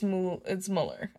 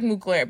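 First: The name is said without a g sound. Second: The name is said with a hard g sound. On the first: The speaker calls it right. "It's Mueller" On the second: The speaker calls it wrong. "I was reading it like Mugler, but it's not Mugler"

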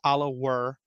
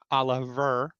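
First: The middle consonant is a W sound. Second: The middle consonant is a V sound. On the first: The speaker calls it right. "Now that's Oliver" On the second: The speaker calls it wrong. "not Oliver, unless the Finns pronounce their W's like V's"

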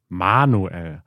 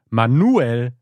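First: The name is said with German stress. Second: The stress is on the syllable nu. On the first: "in Deutschland" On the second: "da wurde das Nu betont"

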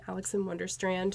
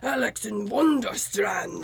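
First: It is said in a plain, ordinary voice. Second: It is said in a big, booming voice. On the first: "so very American" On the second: "he just had this like massive like crazy voice"

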